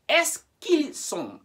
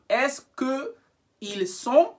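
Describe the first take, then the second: First: The vowel of que drops and joins ils. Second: Que keeps its vowel, separate from ils. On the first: The speaker calls it right. "join it with il" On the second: The speaker calls it wrong. "you don't break them apart like that"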